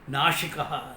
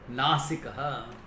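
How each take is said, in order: First: The middle consonant is an sh sound. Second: The middle consonant is a plain s sound. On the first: It describes one who destroys. The speaker calls it wrong. "I've seen some people pronouncing it as Nashikaha, whole meaning changes" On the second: It describes one with a beautiful nose. The speaker calls it right. "Nasika means one who has got a beautiful nose"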